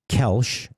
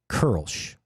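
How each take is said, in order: First: The vowel sounds like a plain English 'e'. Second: The vowel sounds like a rounded 'er' sound. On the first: The speaker calls it wrong. "however we say in English" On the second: The speaker calls it right. "That's how you say it"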